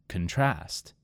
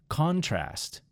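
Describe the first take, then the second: First: The stress is on the second syllable. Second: The stress is on the first syllable. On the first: It is a verb. "in the second word, I moved the emphasis to the second syllable" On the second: It is a noun. "In the first word, it was on the first syllable"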